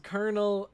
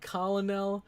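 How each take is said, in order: First: It is said as two syllables, like kernel. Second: It is said as three syllables, col-o-nel. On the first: "people pronounce it as colonel" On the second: "It's spelt like colonel"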